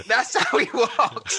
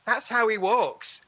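First: Higher, slower, laughing through the words; laughing quote. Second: Said in the usual way. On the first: Retold or imitated. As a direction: chuckle out the line in disbelief. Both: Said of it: "You went".

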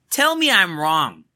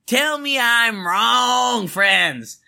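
First: Said in the usual way. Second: Drawn-out shouted Tell me I'm wrong, higher. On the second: Real, not acted. Challenging the podcast friends, a slow higher shout. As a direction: belt it out slowly to the listeners.

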